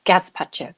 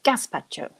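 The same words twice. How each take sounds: First: "Gazpacho" said with a buzzing Z, gaz-pacho. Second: "gazpacho" said with a hissing S, gas-pacho. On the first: Quiz host testing the Z way of saying gazpacho. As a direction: voice the middle sound as Z in "Gazpacho". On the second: Quiz host testing the S way of saying gazpacho. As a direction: swap the Z for a crisp S in "gazpacho". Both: Shown as a demonstration. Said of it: "Do you pronounce it with an S or with a Z?".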